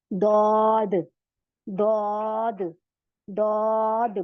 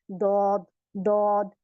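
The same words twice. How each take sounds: First: दौद with the tongue's side on the molars, tip on the gums; correct daud. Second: दौद made heavy like दाल, tongue on the upper teeth; a thick dental d in दौद; wrong daud. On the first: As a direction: press the tongue forward from the back for दौद. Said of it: "तो दौद निकल जाएगा". (सही दौद, किनारा दाढ़ों पे) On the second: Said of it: "तो गलत है". (गलत दौद, दाल जैसा मोटा) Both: Shown as a demonstration.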